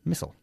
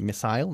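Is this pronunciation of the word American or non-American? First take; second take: American; non-American. First: The word is said in a North American accent. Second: The word is said in a non-American accent. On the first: "they say missile" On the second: "We say missile"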